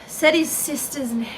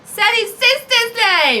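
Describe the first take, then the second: First: It is said at a normal, quieter volume. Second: It is said loudly, projected.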